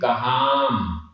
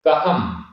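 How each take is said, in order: First: The vowel before the final m is long. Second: The vowel before the final m is short. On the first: It is harder to say. The speaker calls it wrong. "अब यहाँ कहाम बोलने में थोड़ा सा हमें दिक्कत आ रही है" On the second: It is easy to say. The speaker calls it right. "कहम इसमें कोई प्रॉब्लम नहीं है, बड़े आराम से बोल दिया"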